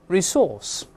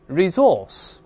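First: The middle consonant is an s sound. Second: The middle consonant is a z sound.

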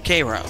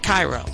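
First: Cairo is said with the local Illinois pronunciation. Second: Cairo is said like the Egyptian city's name. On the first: It names the town in Illinois. The speaker calls it right. "in Illinois, we call the city that's spelled C-A-I-R-O" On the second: It names the city in Egypt. The speaker calls it wrong. "not Cairo. We're not in Egypt"

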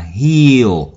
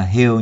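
First: The vowel is long and stretched. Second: The vowel is short and clipped. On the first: It means to mend. The speaker calls it right. "âm của nó là âm y dài là heal" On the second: It becomes the word for a small hill. The speaker calls it wrong. "đừng có đọc nó thành âm y ngắn là heal nhé. Heal là sai đấy"

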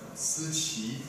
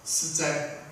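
First: The second syllable is pronounced qi. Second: The second syllable is pronounced zhai. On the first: The speaker calls it wrong. "对不起，思哉啊，念错了啊" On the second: The speaker calls it right.

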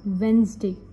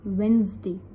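No difference in how they are said.

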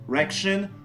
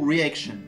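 First: The first two vowels are merged into one. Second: The first two vowels are said separately. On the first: The speaker calls it wrong. "plutôt que de dire reaction" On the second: The speaker calls it right. "on prononce chaque voyelle séparément"

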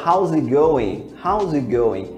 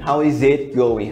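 First: 'Is it' is swallowed into a quick z sound. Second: Each word of 'is it' is said separately. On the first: The speaker calls it right. "bem rápido, as pessoas praticamente engolem essas duas palavras e trocam por z" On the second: The speaker calls it wrong. "Eu não vou falar how is it going"

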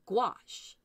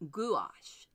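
First: American pronunciation, beginning with a hard G. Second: British pronunciation, said as two distinct syllables. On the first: "Here in the United States, we tend to say gouache, hard G" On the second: "the most common pronunciations for the UK. They pronounce it gouache, like G-O-O-W-A-S-H"

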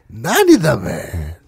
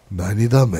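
First: The line is said in a teasing, mocking voice. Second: The line is said in a calm, even voice. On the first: "농락하는" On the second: "차분하게"

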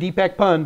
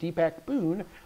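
First: The surname has a short 'uh' vowel. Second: The surname has a long 'oo' vowel. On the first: The speaker calls it wrong. "I've been saying Deepak Pun" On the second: The speaker calls it right. "the proper pronunciation of your name is Deepak Poon"

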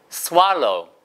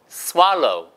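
Both takes have the same delivery.

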